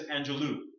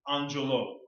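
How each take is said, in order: First: The last syllable sounds like 'loo'. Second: The last syllable sounds like 'loh'.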